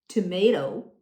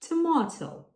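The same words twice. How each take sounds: First: It is said in an American accent. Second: It is said in a British accent. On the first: "while Americans might say tomato" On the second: "Brits say tomato"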